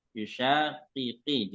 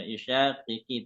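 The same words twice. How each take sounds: First: Slow Yushaqiqi with every qaf sounded; clear qafs. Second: Yushaqiqi with one qaf weakened; wrong Yushaqiqi; dropped qaf error. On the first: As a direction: spell out each qaf in Yushaqiqi. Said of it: "jelas ya". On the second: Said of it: "tidak boleh". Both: Shown as a demonstration.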